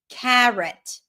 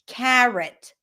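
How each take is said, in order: The two takes are said the same way.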